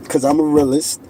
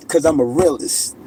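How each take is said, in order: Both takes have the same delivery.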